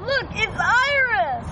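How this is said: The line is yelled loudly.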